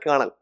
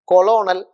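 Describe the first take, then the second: First: The word is not sounded as its letters suggest. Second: The word is sounded out letter by letter. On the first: The speaker calls it right. "But it is not like that. You pronounce it colonel" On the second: The speaker calls it wrong. "if you pronounce it in the exact way like what is written"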